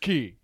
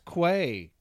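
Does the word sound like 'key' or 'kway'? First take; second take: key; kway. First: The word is pronounced like 'key'. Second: The word is pronounced like 'kway'. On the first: The speaker calls it right. "the locals are like, ugh. It's Key" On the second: The speaker calls it wrong. "That's how it is spelled"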